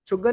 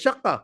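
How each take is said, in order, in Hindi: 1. इसमें 'u' स्वर और 'g' ध्वनि है। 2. इसमें 'a' स्वर और 'k' ध्वनि है। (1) "शुग्गा नहीं है" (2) "तो असल में है वो श"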